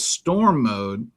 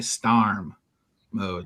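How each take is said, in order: First: Storm is said with a standard 'or' vowel. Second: Storm is said with a Missouri 'ar' vowel.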